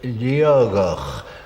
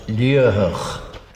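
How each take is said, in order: First: The middle consonant sounds like a G. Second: The middle consonant sounds like a soft H. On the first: This is how some old local native speakers say it. "where the T in the middle should be a G" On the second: This is the pronunciation that follows the spelling. "As it is written, it uh, is pronounced Liahach"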